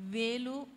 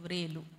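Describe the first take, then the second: First: The word starts with a plain v sound. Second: The word starts with a v-r cluster. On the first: The speaker calls it wrong. "మనం చాలాసార్లు pronounce చేసేటప్పుడు వేలు వేలు అంటాం. వేలు కాదు" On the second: The speaker calls it right. "నిజమైనటువంటి pronunciation ... రావత్తు వస్తే వ్రేలు వస్తుంది"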